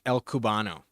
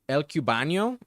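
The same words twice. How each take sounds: First: The n before the final o is a plain n. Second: The n before the final o sounds like ny. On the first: The speaker calls it right. "like like you're Cuban" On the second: The speaker calls it wrong. "I want to say it with like a Spanish accent, but there is no accent on the N"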